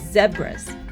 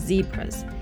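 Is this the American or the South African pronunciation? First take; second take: South African; American. First: It uses the South African pronunciation of the word. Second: It uses the American pronunciation of the word.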